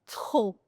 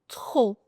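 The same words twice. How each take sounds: The two takes are said the same way.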